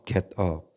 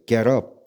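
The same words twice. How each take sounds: First: It is said carefully, with the words kept apart. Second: It is said quickly, with the words run together.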